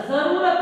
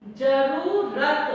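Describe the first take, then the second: First: "जरूरत" with a buzzing z at the start; nukta z sound. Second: "जरूरत" drawn out slowly with a plain j; wrong j sound. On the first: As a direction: say "जरूरत" as zaroorat, with z. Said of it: "जरूरत होता है". ("जरूरत" को ज़रूरत की तरह ज़ के साथ) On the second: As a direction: stretch "जरूरत" slowly, saying ज not ज़. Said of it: "जरूरत नहीं होता". ("जरूरत" धीमे-धीमे, ज़ के बिना गलत उच्चारण) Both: Shown as a demonstration.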